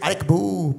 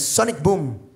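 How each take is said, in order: First: The phrase is slurred, sounding like arek boo. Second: The phrase is said clearly as sonic boom. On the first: This is how the game character seems to say it. The speaker calls it wrong. "siempre dice Arek Boo" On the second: These are the actual words. The speaker calls it right. "pero no, es Sonic Boom"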